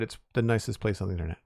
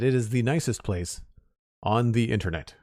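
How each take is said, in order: First: The words are run together and slurred. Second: Each word is pronounced clearly and separately.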